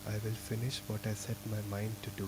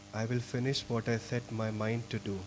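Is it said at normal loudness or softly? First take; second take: softly; normal. First: It is said more softly. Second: It is said at normal loudness.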